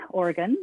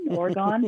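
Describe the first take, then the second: First: Said in the usual way. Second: Oregon ending in a clear GON; variant pronunciation. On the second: Shown as a demonstration. Offering the interviewer another option, variant pronunciation. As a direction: say Oregon with an open "gawn" at the end. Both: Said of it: "what do you say?".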